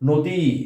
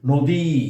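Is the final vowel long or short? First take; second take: long; long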